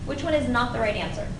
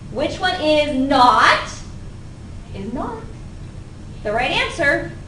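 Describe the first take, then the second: First: The word 'not' gets no special emphasis. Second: The word 'not' is strongly emphasized.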